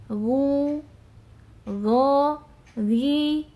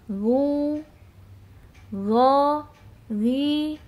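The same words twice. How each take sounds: Both takes have the same delivery.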